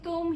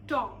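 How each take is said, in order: First: The vowel is a short 'oo' sound. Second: The vowel is an 'o' sound, like Tom. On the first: The speaker calls it right. "instead of saying तुम" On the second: The speaker calls it wrong. "he says Tom"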